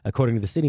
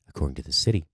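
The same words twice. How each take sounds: First: It is read in a plain, normal speaking voice. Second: It is read in a put-on, sultry, seductive voice.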